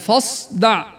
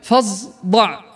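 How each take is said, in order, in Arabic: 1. الحرف بعد الفاء صوت s مفخم مهموس. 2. الحرف بعد الفاء صوت z مجهور. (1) "الأصل هذا صعد وليست زايا" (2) "ويقول مثلها كذلك"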